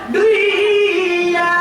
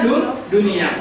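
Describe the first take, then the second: First: The n sound is merged into the following y. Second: The n sound is pronounced clearly and separately. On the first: The speaker calls it wrong. "jangan dibaca" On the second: The speaker calls it right. "wajib dibaca jelas"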